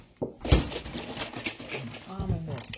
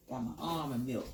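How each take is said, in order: First: Very slow, stretched almond milk; drawn out. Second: Said in the usual way. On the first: Shown as a demonstration. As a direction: savour each word slowly. Repeats item, drawn out.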